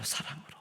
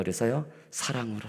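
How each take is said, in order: First: 사랑으로 breathed in a soft whisper. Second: Said in the usual way. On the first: Shown as a demonstration. Preacher repeating the key word for the congregation, whispered.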